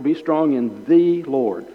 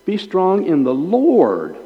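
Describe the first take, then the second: First: The said as a stressed "thee"; emphasize the, as the one and only. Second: Emphasize the last word, Lord, at length; stress on Lord. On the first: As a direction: lean on the, pronounced "thee", before Lord. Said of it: "Not a Lord". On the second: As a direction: Lord high and drawn out. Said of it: "only emphasize the word you've been given". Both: Shown as a demonstration.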